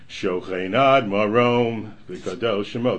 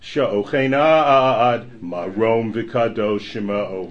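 First: The phrase breaks after 'marom'. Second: The phrase breaks after 'ad'. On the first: God dwells up high. The speaker calls it wrong. "you really shouldn't sing Shochenad Marom V'Kadosh Shemo. That's wrong" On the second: God dwells forever; His name is exalted and holy. The speaker calls it right. "It's Shochenad Marom V'Kadosh Shemo, right?"

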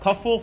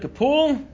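First: The middle consonant is an f sound. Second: The middle consonant is a p sound. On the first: The speaker calls it wrong. "not Kafful, for those who read it with the, like I did the first time" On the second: The speaker calls it right. "Higiyana Kapul"

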